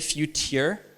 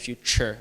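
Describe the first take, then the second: First: The middle has a plain t, no ch sound. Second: The middle has a ch sound. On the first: The speaker calls it wrong. "We could say future, but we don't" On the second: The speaker calls it right. "like a C H"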